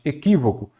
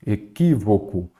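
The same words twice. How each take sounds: First: Said in the usual way. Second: "Equívoco" said slowly, syllable by syllable; sílaba por sílaba. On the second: Shown as a demonstration. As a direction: draw out each syllable of "Equívoco". ("Equívoco" devagar, separado em sílabas) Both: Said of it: "Vamos separar em sílaba".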